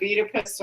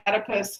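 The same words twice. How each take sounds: First: "Oedipus" said EE-di-pus; first pronunciation variant. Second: "Oedipus" said ED-i-pus; second pronunciation variant. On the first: Teacher offers students one option, "Oedipus" as EE-di-pus. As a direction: start "Oedipus" with a long ee. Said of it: "however you wanna say it". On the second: Teacher offers students the other option, "Oedipus" as ED-i-pus. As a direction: start "Oedipus" with a short e, as in bed. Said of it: "I've heard it both ways". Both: Shown as a demonstration.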